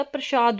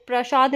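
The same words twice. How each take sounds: First: प्रसाद said "prashaad"; correct short vowel. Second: प्रसाद said "praashaad"; wrong long vowel. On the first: Teacher giving the correct word, short "pra" in प्रसाद. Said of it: "होता है". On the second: Teacher rejecting the wrong word, long "praa" in प्रसाद. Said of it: "नहीं होता". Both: Shown as a demonstration.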